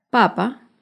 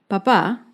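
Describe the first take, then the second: First: "papa" said PA-pa, first syllable stressed; isolated example word "papa", accented on its opening syllable. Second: "papá" said pa-PÁ, last syllable stressed; isolated example word "papá", accented on its closing syllable. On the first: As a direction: put the weight on the first PA of "papa". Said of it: "el acento está en la primera sílaba". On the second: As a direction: put the weight on the final PÁ of "papá". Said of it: "el acento está en la última". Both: Shown as a demonstration.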